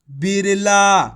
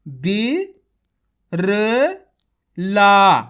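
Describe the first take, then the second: First: Said in the usual way. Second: Each syllable spaced out, last one loud. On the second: Shown as a demonstration. Teacher to pupils, sounding out syllables separately. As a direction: sound out बी, र, ला one at a time, slow and clear. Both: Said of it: "एक बार फिर से देखिए".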